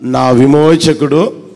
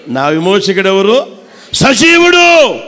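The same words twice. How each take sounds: First: Said in the usual way. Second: Said loudly. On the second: Shown as a demonstration. Preacher showing the church how to declare it loudly. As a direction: proclaim it out loud, ending strong. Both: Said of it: "గట్టిగా అనొచ్చుగా".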